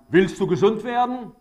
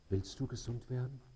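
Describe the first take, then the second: First: It is said harshly, in a frightening way. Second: It is said gently, with warm compassion.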